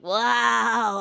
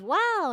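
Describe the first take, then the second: First: It is said weakly, like someone dying. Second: It is said in a normal, fine way.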